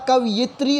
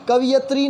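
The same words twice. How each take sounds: First: कवयित्री as कव-यि-त्री; correct pronunciation. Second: कवियत्री said as कवि-यत्री; the common slip कवियत्री; wrong pronunciation. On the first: Teacher to students, giving correct कवयित्री. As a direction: say कवयित्री carefully. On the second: Teacher to students, mimicking wrong कवियत्री. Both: Shown as a demonstration. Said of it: "कवयित्री होता है".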